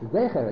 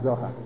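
First: The word is said with 'e' vowels. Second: The word is said with 'a' vowels. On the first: The speaker calls it right. "Make sure you tell him how to pronounce the word. That the word is Zecher" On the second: The speaker calls it wrong. "it's not Zohar"

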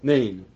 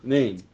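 The two takes are said the same way.

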